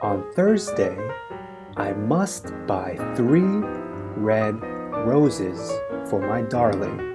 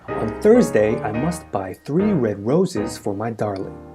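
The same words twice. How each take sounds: First: The sentence is spoken at a slow pace. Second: The sentence is spoken at a fast pace. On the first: "Repeat after me" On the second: "A little quicker now"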